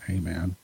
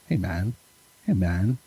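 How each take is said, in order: First: Lifeless greeting. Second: Laid-back greeting. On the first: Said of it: "Like, not". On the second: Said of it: "I can just tell the way he wrote it". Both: Shown as a demonstration.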